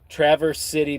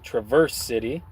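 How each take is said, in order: First: It is said in the speaker's ordinary accent. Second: It is said in a put-on Canadian accent.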